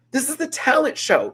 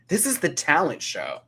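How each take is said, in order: First: High, loud exasperated exclamation; mock outrage. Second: Said in the usual way. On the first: Real, not acted. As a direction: repeat it much higher, hammering the point. Repeats it, escalating in mock outrage.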